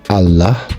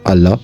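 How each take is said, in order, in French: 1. Le mot se termine par un h expiré audible. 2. Le mot se termine sans aucun son h final. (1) "avec un H à la fin" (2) "comme je le prononce d'habitude avec mon accent de clan des Français"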